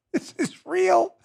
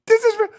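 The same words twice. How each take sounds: First: Slow, softer, higher disbelief on real; disbelieving repeat. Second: Higher, punchy stress on this; emphatic repeat. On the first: Host stunned by the Twitter ruling, slow hushed disbelief. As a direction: let it sink in slowly, hushed and high. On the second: Host repeating to the audience, punchy insistence. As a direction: hammer home this, falling hard. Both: Real, not acted.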